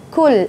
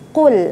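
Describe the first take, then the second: First: It starts with a plain front k sound. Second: It starts with a deep back-of-tongue q sound. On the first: The speaker calls it wrong. "jangan kul, kul jadi kaf" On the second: The speaker calls it right. "Makhrajnya huruf qaf, ya, makhrajnya di pangkal lidah"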